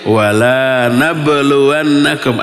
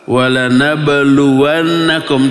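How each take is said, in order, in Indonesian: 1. Vokal pada 'la' dibaca panjang. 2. Vokal pada 'la' dibaca pendek. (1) "Kalau dibaca panjang" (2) "Ada huruf lam dibaca pendek"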